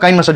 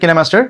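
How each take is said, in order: First: The first syllable sounds like 'kai'. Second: The first syllable sounds like 'ki'. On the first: The speaker calls it wrong. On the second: The speaker calls it right.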